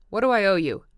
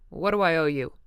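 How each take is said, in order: First: Angry shout. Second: Louder, curt harsh question; harsh demand. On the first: Tom to Wilson, repeating in an angry shout. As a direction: shout it now, patience gone. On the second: Tom to Wilson, cutting him off harshly. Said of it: "demanded Tom harshly". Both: A narrator's reading.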